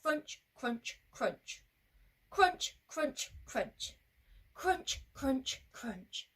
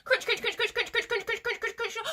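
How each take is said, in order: First: Evenly spaced, deliberate CRUNCH each time; march the crunches out without hurry; steady and brave. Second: Very fast, high crunching; running away quickly. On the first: Going back bravely, steady measured crunching. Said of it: "Crunch steady, big and brave". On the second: Running away from the Gruffalo, frantic quick crunching. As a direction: gabble each crunch like scampering feet. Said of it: "We need to run away very quickly". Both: Shown as a demonstration.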